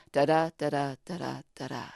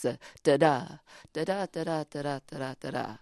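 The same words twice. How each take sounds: First: "da-da" repeated, weak beat then strong beat; iambic da-da rhythm. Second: Da-da with the second "da" stressed each time; iambic da-da rhythm. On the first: Poet repeats the iambic beat for the host. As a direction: chant "da-da" stressing the second "da". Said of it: "So you hear the rhythm". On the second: Poet demonstrates iambic meter, stressing each second "da". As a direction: tap out "da-da" as unstressed then stressed. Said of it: "combination of unstressed and stressed syllables". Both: Shown as a demonstration.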